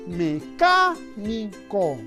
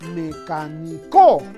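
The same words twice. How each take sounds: First: The stress is on the second syllable. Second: The stress is on the last syllable. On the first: The speaker calls it right. "La palabra mecánico es una palabra esdrújula" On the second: The speaker calls it wrong. "La mayor fuerza en la co no suena bien"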